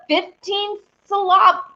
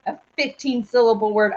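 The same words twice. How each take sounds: First: "syllab-" stressed on LAB, cut off; syllable mis-stressed. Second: Said in the usual way. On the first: Real, not acted. Host reading the chat trips over "syllab-", stressed on LAB. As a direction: slip into sil-LAB on "syllab-" and stop short. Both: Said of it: "I almost called it syllable".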